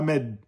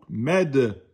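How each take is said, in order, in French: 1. Le d final s'arrête net, sans rebond. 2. Le d final est relâché avec un rebond en écho. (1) "pas med" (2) "le dal, il était qalqala quand il porte la soukoun"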